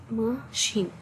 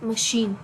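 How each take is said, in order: First: "machine" split into two separate syllables. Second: Said in the usual way. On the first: Shown as a demonstration. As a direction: say "machine" as ma, pause, sheen. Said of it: "pronounce the word and put our hand". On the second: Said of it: "let's pronounce that word".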